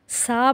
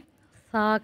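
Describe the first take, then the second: First: It is said with a whistling hiss. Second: It is said softly without jolt or whistle. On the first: The speaker calls it wrong. "सफ़ेरिया" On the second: The speaker calls it right. "इसको हम सा कहेंगे"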